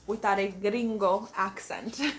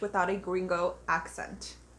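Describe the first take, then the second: First: The word gringo has a Spanish accent. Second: The word gringo has an English accent.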